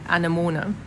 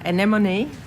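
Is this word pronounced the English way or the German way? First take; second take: German; English. First: The word is said with a German pronunciation. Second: The word is said with an English pronunciation. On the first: "in German it would just be" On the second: "I got taught uh"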